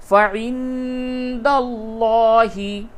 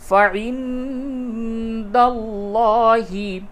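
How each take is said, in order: No difference in how they are said.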